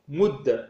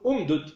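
First: The two d sounds merge into one doubled d. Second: The two d sounds are split apart.

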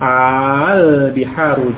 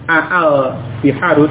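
First: The opening vowel is held long without a break. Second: The opening vowel is split by a glottal stop. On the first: The speaker calls it right. "menjadi satu dengan bacaan mat, dengan bacaan panjang" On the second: The speaker calls it wrong. "dengan dua hamzah aa, tidak seperti itu"

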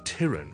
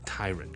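First: The first syllable sounds like that of tyranny. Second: The first syllable differs from that of tyranny. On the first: The speaker calls it wrong. "我就以为系读成tyrant 喎" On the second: The speaker calls it right. "其实咧系应该系tyrant 嘅"

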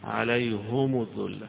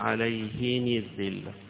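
First: Both the h-vowel and linking vowel are u. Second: Both the h-vowel and linking vowel are i. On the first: "يضم ضمتين فيها" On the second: "بالكسر مع"

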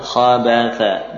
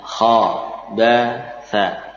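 First: The word is read quickly and smoothly. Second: The word is read slowly, letter by letter. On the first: The speaker calls it wrong. "membaca dengan lebih cepat" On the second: The speaker calls it right. "dibaca dengan tempo yang lebih pelan ya, walaupun dengan suara yang terpenggal-penggal"

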